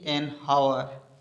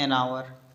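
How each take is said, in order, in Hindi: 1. शब्द की शुरुआत में h की साफ़ आवाज़ सुनाई देती है। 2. शब्द की शुरुआत एक स्वर से होती है, h की आवाज़ नहीं है। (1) "ऐसे नहीं कि एन हावर" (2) "अपन इसको बोलते हैं एन आवर"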